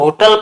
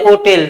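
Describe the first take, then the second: First: The second syllable has a reduced vowel. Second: The second syllable has a full 'e' vowel. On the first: The speaker calls it wrong. "Hundred percent इसको होटल पढ़ते हैं, जबकि ये होटल नहीं होता" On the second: The speaker calls it right. "इसको पढ़ते हैं होटेल"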